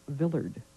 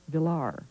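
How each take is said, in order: First: It rhymes with Willard, with the final D sounded. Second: The D is silent; the stress falls on the last syllable. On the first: The speaker calls it wrong. "mispronounced his name as Villard" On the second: The speaker calls it right. "the D is not pronounced. The accent is on the last syllable"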